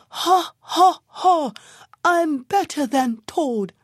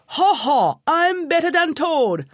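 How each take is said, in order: First: Barely enough wind, push it out; worn-out donkey still bragging; breathless bawl. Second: Loud high braying boast; donkey bawling his win; bawled boast. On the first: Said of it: "very tired and out of breath". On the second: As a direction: bray it out like a donkey crowing. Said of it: "he bawled out". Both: A narrator's reading.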